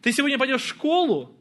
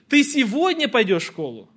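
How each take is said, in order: First: The stress falls on the word школу. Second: The stress falls on the word сегодня. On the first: Asks whether the destination is school or somewhere else. "В школу или на каток" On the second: Asks whether the going happens today or tomorrow. "Сегодня или завтра?"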